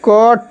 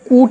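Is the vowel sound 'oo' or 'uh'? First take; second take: uh; oo. First: The vowel is a short 'uh' sound. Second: The vowel is a long 'oo' sound. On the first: The speaker calls it right. "क्या पढ़ते हैं इसे हम" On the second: The speaker calls it wrong. "इसे हम लोग कूट नहीं बोलेंगे"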